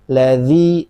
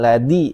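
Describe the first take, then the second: First: The middle consonant is a soft dh sound. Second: The middle consonant sounds like a plain d. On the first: The speaker calls it right. "Jangan nyerempet ke huruf dal" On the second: The speaker calls it wrong. "bukan ladi"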